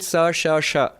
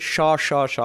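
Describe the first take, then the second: First: The three sibilant sounds are pronounced differently. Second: All three sibilant sounds are pronounced identically. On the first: "In Sanskrit" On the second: "In Bengali, we pronounce it ... All of them are the same pronunciation"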